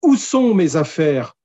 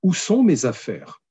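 First: It is asked with anger and impatience. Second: It is asked as a calm, neutral question.

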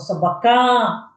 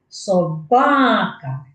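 First: The stress is not on the second syllable. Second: The stress is on the second syllable. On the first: The speaker calls it wrong. "Я ж не кажу собака або собака" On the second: The speaker calls it right. "Саме другий склад є наголошений"

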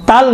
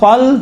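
First: The t sound is light and thin. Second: The t sound is heavy and thick. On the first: The speaker calls it wrong. "तल नहीं होगा" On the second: The speaker calls it right. "थोड़ा मोटा अदा करें"

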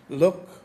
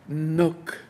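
First: The word begins with an L sound. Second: The word begins with an N sound. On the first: The speaker calls it right. "He said" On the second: The speaker calls it wrong. "I couldn't pronounce the L"

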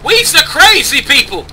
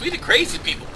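First: It is said in an imitated Jamaican accent. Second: It is said in the speaker's normal accent.

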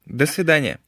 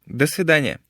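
Both takes have the same delivery.

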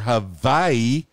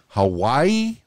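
First: The middle consonant is a V sound. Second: The middle consonant is a W sound. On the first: "with the V sound" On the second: "with a W sound"

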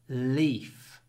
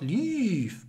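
First: The L sound at the start is long. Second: The L sound at the start is short. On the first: The speaker calls it right. "You need to make the L long" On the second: The speaker calls it wrong. "Not leaf"

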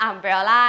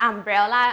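The two takes are said the same way.

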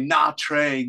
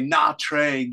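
First: The name is pronounced in an American way. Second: The name is pronounced in an American way.

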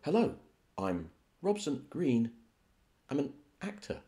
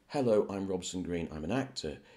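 First: The sentence is chopped up by odd pauses. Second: The sentence flows on with no odd pauses. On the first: "breaking it up and, you know, sort of saying it in a strange way" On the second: "So instead of saying"

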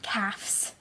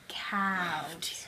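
First: The word is said with an f sound before s. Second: The word is said with a v sound before s. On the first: The speaker calls it wrong. "Not calves. ... not LFS" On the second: The speaker calls it right. "it's LVS"

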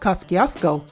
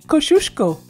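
First: The name is said in an Americanized way. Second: The name is said in a Polish-style way. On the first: This is how locals commonly said it. The speaker calls it wrong. "everyone always said Kosciuszko" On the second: This is how the Polish community says it. The speaker calls it right. "according to the Polish community ... It's pronounced Kosciuszko"

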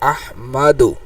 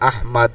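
First: The final u vowel is pronounced after d. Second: The word ends on d with no vowel.

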